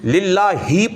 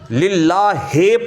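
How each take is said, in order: First: The word ends in an 'i' sound. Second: The word ends in an 'e' sound. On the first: The speaker calls it right. "ये ई की आवाज है, ये सही होगा" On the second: The speaker calls it wrong. "यह गलत हो जाएगा, क्योंकि हे ए की आवाज देता है"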